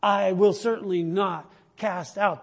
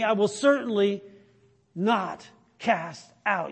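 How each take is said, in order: First: "I will certainly not cast out" said again at a steady pace, stress on "will"; restated promise. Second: Slow down and lean on "not" in "I will certainly not cast out"; slow emphatic promise. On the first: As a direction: repeat it firmly, with the weight on "will" rather than "not". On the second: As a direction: stretch "not cast out" slowly, with weight on "not". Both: Shown as a demonstration. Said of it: "You can underline that".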